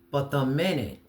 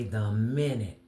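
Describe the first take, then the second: First: "minute" pressed out a little louder; stress on minute. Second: "minute" slowed and weighted, falling; repeated stress on minute. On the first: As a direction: lean on "minute". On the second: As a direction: hit "minute" again, deliberately. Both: Shown as a demonstration. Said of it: "and I say the minute".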